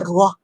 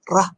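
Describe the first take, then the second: First: The vowel after R is rounded, like o. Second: The vowel after R is open, unrounded. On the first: The speaker calls it wrong. "bukan Rah; Rah tu dia jadi Ra dengan Waw" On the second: The speaker calls it right.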